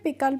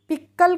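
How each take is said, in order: First: The k sound is single and short. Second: The k sound is doubled and held. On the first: The speaker calls it right. "पिकल पढ़ेंगे" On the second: The speaker calls it wrong. "पिक्कल करके नहीं पढ़ेंगे"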